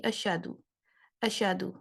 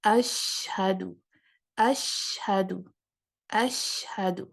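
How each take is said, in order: First: اشہدو with the ش bounced and the ہ dropped; wrong reading. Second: اشہدو said very slowly, ش spread and ہ clearly breathed; correct reading. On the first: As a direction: rush اشہدو so the ہ disappears. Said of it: "غلط پڑھتے ہوئے میں کہوں گی". (غلط تلفظ، اشہدو میں ہ غائب) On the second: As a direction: hold the ش, then sound the ہ in اشہدو. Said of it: "تفشی کی صفت کو اپلائی کروں گی". (صحیح تلفظ، ش پھیلا کر اور ہ واضح) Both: Shown as a demonstration.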